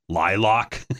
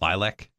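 First: It is said with a Wisconsin 'lock' ending. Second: It is said in a standard, classy pronunciation. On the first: "as a Wisconsin guy, I do it L-Y-L-O-C-K" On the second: "the proper way"

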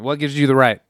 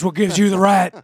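First: It is asked in an ordinary, natural speaking voice. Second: It is asked in a gruff, put-on wrestler voice.

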